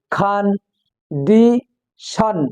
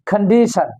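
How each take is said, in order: First: খান, ডি, শন as three separate syllables with clear pauses; each of খান, ডি, শন said alone, evenly spaced; split into syllables. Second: Said in the usual way. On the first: Shown as a demonstration. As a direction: spell out the beats slowly: খান... ডি... শন. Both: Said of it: "আলাদা আলাদা করে".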